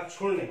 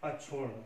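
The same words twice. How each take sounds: First: अक्षुण्य ending in "nya"; louder अक्षुण्य with a y glide at the end; wrong form. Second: अक्षुण्ण ending on a held "n"; corrected form. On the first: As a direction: say अक्षुण्य as ak-chhun-ye. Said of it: "ये गलत लिखा हुआ". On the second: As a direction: say अक्षुण्ण as ak-chhunn. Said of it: "ये सही शब्द है". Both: Shown as a demonstration.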